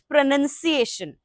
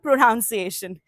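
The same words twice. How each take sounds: First: The second syllable sounds like 'nun'. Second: The second syllable sounds like 'noun'. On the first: The speaker calls it right. "is pronunciation" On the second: The speaker calls it wrong. "It is not pronunciation"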